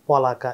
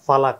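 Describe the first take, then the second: First: The first syllable has a rounded o vowel. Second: The first syllable is an aspirated pha. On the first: "పొలక ఇంకో రకంగా పలకొచ్చు" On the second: "ఒకడు ఫా ఫలక అని పలకొచ్చు"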